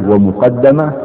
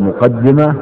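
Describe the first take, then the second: First: ومقدمة said wa-muqaddama, a after the doubled d; fatha on the dal. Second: مقدمة said muqaddima, i after the doubled d; kasra on the dal. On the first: Teacher allowing both readings, then ومقدمة as wa-muqaddama. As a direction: give ومقدمة its a form, wa-muqaddama. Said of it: "بفتح الدال". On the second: Teacher allowing both readings, first مقدمة as muqaddima. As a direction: give مقدمة its i form, muqaddima. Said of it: "بكسر الدال". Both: Shown as a demonstration.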